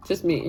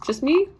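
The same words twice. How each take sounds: First: Falling tune on me, conceding it; Just me. dropped flat at the end, accepting it; Just me. said with a falling, settled tune; resigned answer. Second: Rising tune on me, asking the room; Just me? lifted high at the end, hoping someone agrees; Just me? said with a high rising question tune; hopeful question. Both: Real, not acted.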